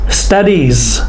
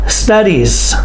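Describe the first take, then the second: No difference in how they are said.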